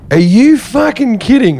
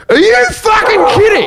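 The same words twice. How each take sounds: First: Raised, incredulous retort without shouting; indignant disbelief at a higher pitch; restrained retold outrage. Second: Very high, incredulous shout; retold outraged yell. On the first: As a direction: re-enact the outburst, held back from a yell. Repeats outburst after dogs were set off. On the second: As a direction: re-enact a scandalized outburst at full pitch. Acts his outburst, dogs start barking.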